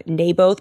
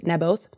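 First: "Naboth" with a long A, NAY-both; old pronunciation. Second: "Naboth" with a short A, NAB-oth; corrected pronunciation. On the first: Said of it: "I used to say". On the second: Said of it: "but it's Naboth". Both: Shown as a demonstration.

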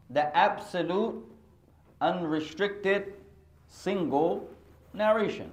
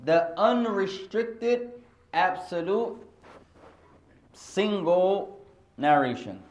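First: Slow, drawn-out repeat; slow term. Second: Slow, deliberate term. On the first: Teacher repeating the term to the class, slowly. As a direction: stretch each word for note-takers. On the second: Teacher dictating a term to the class, slowly. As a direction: spell the term out slowly for students. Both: Shown as a demonstration. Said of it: "teaching the term".

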